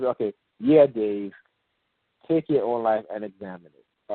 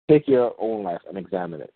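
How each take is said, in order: First: Said in the usual way. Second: "Take your own life" hit harder, then falling away; stress on TAKE YOUR OWN LIFE. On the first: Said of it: "they do it in a conversational manner". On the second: Shown as a demonstration. Demonstrating the scripted pattern to listeners, stress on "Take your own life". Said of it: "they emphasize the word".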